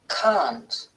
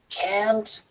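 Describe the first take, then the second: First: It is said in a British accent. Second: It is said in an American accent. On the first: "and can't is the pronunciation in British English" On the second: "Can't is the pronunciation in American English"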